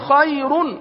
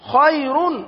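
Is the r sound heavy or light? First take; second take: heavy; heavy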